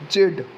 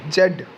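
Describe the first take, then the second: First: It is a syllable ending in a d sound. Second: It is a syllable ending in a d sound.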